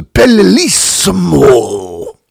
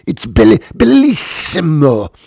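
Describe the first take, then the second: First: "bellissimo" drawn out high and loud in a hammed-up Italian accent; mock Italian accent. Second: Mock Italian accent. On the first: Mocking the TV cook's sudden Italian, "bellissimo" slow, high and loud. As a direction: stretch "bellissimo" slowly, rolling it like a TV Italian chef. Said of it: "she turns very Italian". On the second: Host mocking the cook again, hammed-up Italian on "bellissimo". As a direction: ham up "bellissimo" like a convulsing Italian chef. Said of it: "You said a word and you convulsed".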